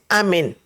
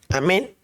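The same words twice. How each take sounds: First: The stress falls on the first syllable. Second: The stress falls on the last syllable. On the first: "si le quitan el acento, se dice amén" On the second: "la palabra amén lleva un acento en la E"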